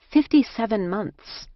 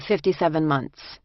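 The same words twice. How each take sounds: First: Higher, mildly astonished echo; stunned repetition. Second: Put-on Jersey-accented matter-of-fact answer, falling. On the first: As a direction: dwell on the figure in disbelief. Narrator marvels at the long sentence. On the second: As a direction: state it plainly like a Jersey woman. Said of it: "she said in a Jersey accent". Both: A narrator's reading.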